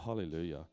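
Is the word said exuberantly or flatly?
flatly. The word is said flatly, without enthusiasm. The speaker calls it wrong. "or hallelujah"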